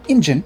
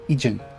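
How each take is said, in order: First: An n sound comes before the j. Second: No n sound comes before the j. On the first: The speaker calls it wrong. "not Injin, that's different. That's wrong" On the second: The speaker calls it right. "Ijin, not Injin"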